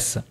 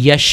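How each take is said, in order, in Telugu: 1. ఈ పదం 's' శబ్దంతో ముగుస్తుంది. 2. ఈ పదం 'sh' శబ్దంతో ముగుస్తుంది. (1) "హిందీ పీపుల్ దీన్ని ఎస్ అని పలుకుతూ ఉంటారు" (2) "మనం తెలుగు వాళ్ళు పలికితే ... దీన్ని యష్ అంటాం"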